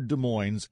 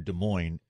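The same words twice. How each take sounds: First: The final S sound is pronounced. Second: The final S sound is silent. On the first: It names the local town. "our Des Moines ... we have the S on ours" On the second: It names the other city. "their Des Moines"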